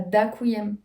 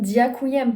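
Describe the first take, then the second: First: The d is hard, with no glide. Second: The d is soft, with a y-glide. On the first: The speaker calls it wrong. "pas dakuyem" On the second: The speaker calls it right. "c'est bien diakuyem"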